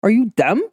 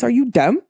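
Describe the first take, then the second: First: Said in the usual way. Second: Put-on New York voice; New York accent. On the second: Shown as a demonstration. Podcaster mocking an ex's second-chance plea, New York accent. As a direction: say it like a New Yorker. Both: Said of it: "In my New York voice".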